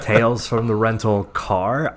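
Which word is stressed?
Car. The stress is on the word car.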